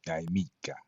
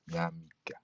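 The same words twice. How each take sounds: First: Jamaica said yai-MI-ka with a Y; corrected Latin. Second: Jamaica said ya-MI-ka with a Y; corrected Latin. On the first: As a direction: Jamaica with a Y sound. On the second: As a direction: Jamaica with a Y sound, softer. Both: Shown as a demonstration. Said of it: "No, no, it would be".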